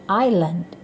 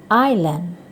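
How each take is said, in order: Both takes have the same delivery.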